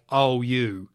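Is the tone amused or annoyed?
annoyed. It sounds genuinely annoyed and fed up.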